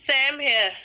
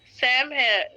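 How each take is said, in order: Both takes have the same delivery.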